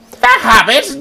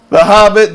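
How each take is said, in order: First: It is said in a growling cartoon villain voice. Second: It is said in a plain, ordinary speaking voice.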